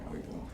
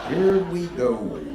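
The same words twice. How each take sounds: First: Muttered dread. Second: Slow drawn-out here we go with a laugh; hammed-up dread. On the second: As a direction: stretch it out like doom is coming. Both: Shown as a demonstration. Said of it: "repeated dread".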